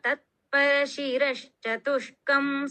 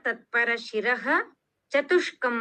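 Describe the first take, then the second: First: The words are joined together without breaks. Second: The words are said separately with small breaks. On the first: "ಇಲ್ಲಿ ನಾನು ಒಟ್ಟಿಗೆ ಹೇಳಿದ್ದೇನೆ" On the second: "ನಾವೆಲ್ಲ ಕಲಿಯುವಾಗ ತತ್ಪರ ಶಿರಃ ಚತುಷ್ಕಂ ಅಂತ ಕಲ್ತಿದ್ದೇವೆ"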